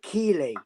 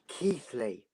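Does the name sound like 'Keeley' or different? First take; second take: Keeley; different. First: The name is said like 'Keeley'. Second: The name is said differently, not like 'Keeley'. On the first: The speaker calls it wrong. "you've been pronouncing it Keeley, and it gets on my nerves" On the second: The speaker calls it right. "It's Keighley"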